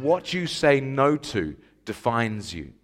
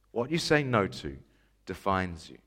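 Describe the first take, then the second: First: Slow, deliberate slogan delivery; measured statement, falling at the end; slow declaration. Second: Quieter, dropping low on "defines you"; hushed echo, pause before "defines you"; softer repeat. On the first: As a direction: quote it slowly at normal volume. First delivery of quoted ad slogan. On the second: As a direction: let the slogan sink down softly. Slogan repeated for effect. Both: Retold or imitated.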